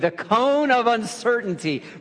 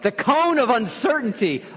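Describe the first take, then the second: First: It is said in a plain, neutral way. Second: It is said with strong, dramatic feeling. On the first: "Say it with me" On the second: "Really feel it"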